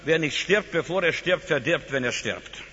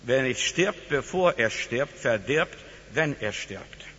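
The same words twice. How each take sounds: First: It is said at normal speed. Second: It is said slowly.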